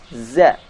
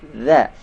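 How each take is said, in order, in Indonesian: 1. Z biasa, lidah di belakang gigi. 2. Z lembut mirip th, lidah di antara gigi. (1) "Banyak di antara kita membaca huruf za dengan membaca za" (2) "ujung lidah sedikit dikeluarkan"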